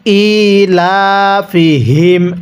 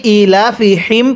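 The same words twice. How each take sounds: First: ইলাফিহিম with a voiced হ, slow and drawn. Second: ইলাফিহিম with the হি pushed out as a puff of air; wrong breathy ha. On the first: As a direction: voice the হ in ইলাফিহিম instead of breathing it. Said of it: "মুখ দিয়ে আওয়াজ করে পড়তে হবে". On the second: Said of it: "মুখ দিয়ে বাতাস বের করি". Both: Shown as a demonstration.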